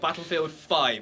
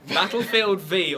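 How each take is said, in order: First: The final part is said as the number five. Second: The final part is said as the letter vee. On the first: "versus iPhone ten debate" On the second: "It's like an iPhone X"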